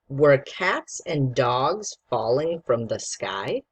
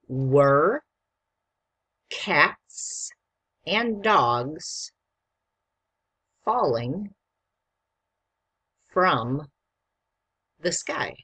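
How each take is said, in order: First: The sentence is read quickly. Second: The sentence is read slowly.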